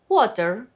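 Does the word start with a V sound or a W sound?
W sound. The word begins with a W sound.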